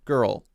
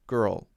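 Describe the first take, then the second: First: The word ends with a clear L sound. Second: The same.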